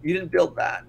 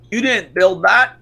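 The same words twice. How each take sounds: First: Said in the usual way. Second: Slow, louder, rising at the end; mock Obama quote. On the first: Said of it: "I gotta play the clip now". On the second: Mocking a politician's famous line, slow and louder. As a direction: draw out the quote like a speech line.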